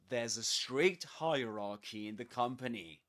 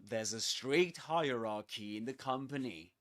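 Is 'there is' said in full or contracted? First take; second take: contracted; contracted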